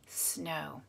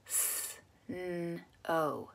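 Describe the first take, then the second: First: Said in the usual way. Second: "Snow" quietly split into s, n, long o; sound by sound. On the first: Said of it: "you're gonna put it together". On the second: Shown as a demonstration. Teacher sets a blending puzzle, "Snow" segmented. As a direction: draw out each sound of "Snow" separately. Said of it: "say the sounds of the word".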